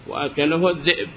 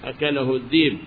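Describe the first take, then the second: First: A glottal stop is heard in the last word. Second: A long ee vowel replaces the glottal stop. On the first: "وبغير الياء" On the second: "بالياء"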